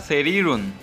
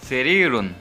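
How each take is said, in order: The two takes are said the same way.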